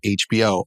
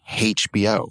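First: The letter H starts without an h sound. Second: The letter H starts with an added h sound. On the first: "instead of HBO" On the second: "a lot of people in Britain say HBO"

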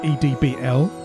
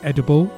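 First: It is not said like the word edible. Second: It is said like the word edible. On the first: The speaker calls it right. "it's pronounced edbl" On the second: The speaker calls it wrong. "I was pronouncing it edible"

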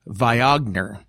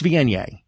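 First: The word is pronounced literally, letter by letter. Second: The word is pronounced differently from its spelling. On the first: The speaker calls it wrong. "it looks like the word should be pronounced Viognier" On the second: The speaker calls it right. "but it's Viognier"

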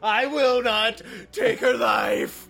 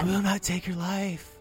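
First: It is said loudly and dramatically. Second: It is said quietly and reined in.

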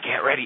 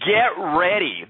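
First: It is said in a creepy, ominous tone. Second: It is said in an upbeat, excited tone. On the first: The speaker calls it wrong. "She kind of was creepy the way she said, get ready. It's not get ready" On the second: The speaker calls it right. "It's get ready"

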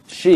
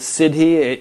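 First: The word is said as one syllable. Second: The word is said with two syllables. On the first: The speaker calls it right. "Pronounced like she" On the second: The speaker calls it wrong. "Is that pronounced correctly?"

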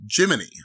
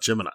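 First: The last syllable ends in an 'ee' sound. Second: The last syllable ends in an 'eye' sound. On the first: This is how it was said back then. "it's Jiminy" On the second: This is how it is usually said today. "not Gemini"

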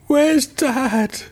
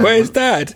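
First: It is said in a serious, sad tone. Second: It is said in a casual, offhand tone.

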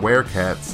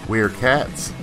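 First: 'Weer' is said like 'were' in werewolf. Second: 'Weer' is not said like 'were' in werewolf. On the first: The speaker calls it right. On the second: The speaker calls it wrong.

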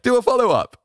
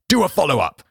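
First: It is said in a mild, friendly way. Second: It is said forcefully, like a demand.

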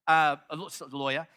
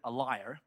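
First: The word sounds like 'lawyer', with 'loy'. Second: The word sounds like 'liar', with 'lie'. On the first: It is the speaker's own usual pronunciation. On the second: It mimics another person's pronunciation.

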